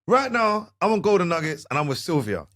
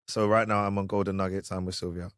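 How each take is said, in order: First: It is spoken with a rhythmic, musical cadence. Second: It is spoken plainly, without a set rhythm.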